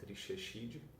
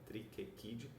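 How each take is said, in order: First: The ch is pronounced as a soft sound. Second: The ch is pronounced as a hard k sound. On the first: The speaker calls it wrong. "e não" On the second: The speaker calls it right. "o C H se pronuncia que nem um K"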